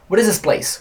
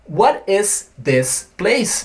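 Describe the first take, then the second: First: The th in 'this' is blended away. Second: The th in 'this' is clearly pronounced. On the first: "Não tem nada a ver com" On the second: "isso que está escrito"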